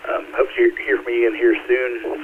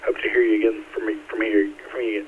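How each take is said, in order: First: Said in the usual way. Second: Stuck repeating words in a real stutter; catching on the words, repeating them. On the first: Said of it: "Sorry, I have a stuttering problem". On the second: Real, not acted. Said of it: "I hate stuttering".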